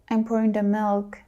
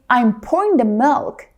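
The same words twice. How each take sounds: First: It is said timidly, with hesitation. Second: It is said loudly and with confidence. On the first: The speaker calls it wrong. "Don't say it with hesitation" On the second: The speaker calls it right. "say it out loud and be confident"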